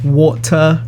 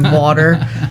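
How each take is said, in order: First: It is said with a London-style accent. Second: It is said in a plain local accent. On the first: "grew up with a little bit of an accent, saying like water" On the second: "rather than water"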